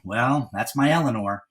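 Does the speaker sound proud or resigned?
resigned. The tone sounds resigned and helpless. He cannot control what she does. "as if there was nothing that he could do"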